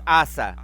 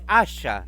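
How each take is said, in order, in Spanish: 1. La consonante del medio es un sonido s simple. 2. La consonante del medio es un sonido sh. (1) "la pronunciación parece que no es asa" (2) "sino que la pronunciación es asha"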